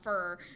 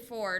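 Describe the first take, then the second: First: The vowel is a reduced 'ur' sound. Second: The vowel is a full 'or' sound. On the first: "not fur" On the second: "I say for"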